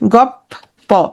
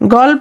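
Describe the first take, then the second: First: The middle sound is a doubled p. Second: The middle sounds are l followed by p. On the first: "লটা কি হয়ে গেল? প হয়ে গেল।" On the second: "লটা কি হয়ে গেল? প হয়ে গেল।"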